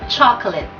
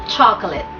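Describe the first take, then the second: Both takes have the same delivery.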